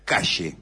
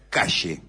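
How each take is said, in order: First: The word is said the Buenos Aires way. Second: The same.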